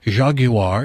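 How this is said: It is said with a British pronunciation.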